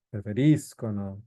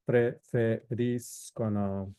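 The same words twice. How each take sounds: First: Preferiscono, stress on RI, the third syllable from the end; Preferiscono, hit the RI. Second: Preferiscono slow, stress on RI; Preferiscono, stress the third syllable from the end. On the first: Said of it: "And again, the accent pattern". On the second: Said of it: "the accent pattern". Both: Shown as a demonstration.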